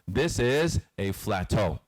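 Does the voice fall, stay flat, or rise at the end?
flat. The pitch stays level to the end. "Either you go flat"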